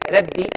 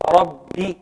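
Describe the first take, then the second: First: The r is light and thin. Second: The r is heavy and full. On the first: The speaker calls it wrong. "I made it soft. And I should not be saying it like that" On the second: The speaker calls it right. "It should be Ra, Rabbi"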